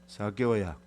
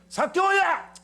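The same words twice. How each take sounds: First: The name is called in a flat, expressionless tone. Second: The name is called out in an angry tone. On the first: The caller feels nothing toward the person. "무표정한 말일까?" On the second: The caller is irritated with the person. "이래 성질난 모습일까요?"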